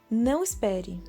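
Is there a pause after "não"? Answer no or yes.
no. There is no pause after "não". It tells the listener not to wait.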